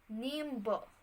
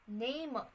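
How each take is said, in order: First: A b sound is heard after the m. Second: There is no b sound after the m. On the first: This is the later form with an added sound. "in the early modern English" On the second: This is the older form of the word. "In the Old English"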